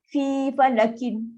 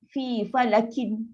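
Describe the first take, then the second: First: The last word ends with a vowel ending. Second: The last word ends with a vowel ending.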